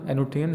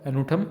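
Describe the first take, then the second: First: एनोथियन with an -iyan ending; alternative pronunciation. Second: एनोथम with a th, ending in -um; alternative pronunciation. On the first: Teacher offers students another way to say antonym, एनोथियन ending in -thiyan. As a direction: say एनोथियन as a-no-thi-yan. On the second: Teacher offers students one way to say antonym, एनोथम ending in -thum. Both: Shown as a demonstration. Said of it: "जो भी आप pronunciation कर सकते हो".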